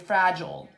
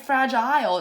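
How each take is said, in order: First: The second syllable has a weak schwa vowel. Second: The second syllable has a long i vowel. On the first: The speaker calls it right. "It's going to be fragile" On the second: The speaker calls it wrong. "it's not going to be fragile"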